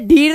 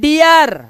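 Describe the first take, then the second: First: The vowel is a single long ee sound. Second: The vowel glides from ee into uh. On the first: The speaker calls it wrong. "इसे डीर नहीं पढ़ेंगे" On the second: The speaker calls it right. "इसे पढ़ेंगे डियर"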